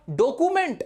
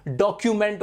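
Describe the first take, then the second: First: डॉक्यूमेंट said "dokument" without the y glide, as many do; common wrong pronunciation. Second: डॉक्यूमेंट said "dokyument" with the y glide after k; correct pronunciation. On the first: Teacher to students shows the common mispronunciation of डॉक्यूमेंट. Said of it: "बहुत ज्यादा लोग डॉक्यूमेंट बोलते हैं". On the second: Teacher to students gives the correct डॉक्यूमेंट with a clear y glide. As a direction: model the right डॉक्यूमेंट as "dok-yu-ment". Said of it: "डॉक्यूमेंट होता है भाई". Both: Shown as a demonstration.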